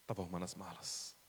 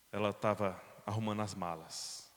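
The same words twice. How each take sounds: First: Much softer, hushed repeat; hushed echo. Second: Said in the usual way. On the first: Shown as a demonstration. Preacher echoing the discovery softly to the congregation, hushed. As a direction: let the words fall away quietly. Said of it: "repeated line". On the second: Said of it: "repeated softer".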